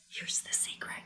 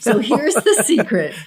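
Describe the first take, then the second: First: It is whispered. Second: It is yelled loudly.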